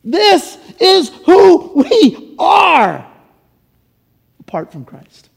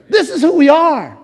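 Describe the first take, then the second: First: Slow, breaking, tearful catch on the words. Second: Said in the usual way. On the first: Real, not acted. Pastor to congregation, choked up and slow. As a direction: let the voice catch as you say it.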